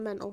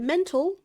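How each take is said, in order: First: The T sound is dropped, shortening the word. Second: The T sound is fully pronounced. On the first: "it can just be shortened to mental" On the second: "if you hear mental"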